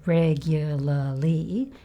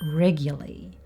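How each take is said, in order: First: All four syllables are pronounced in full. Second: The third syllable is dropped, leaving three syllables. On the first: "He didn't say regularly. He didn't say the third syllable" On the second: "He just said regularly"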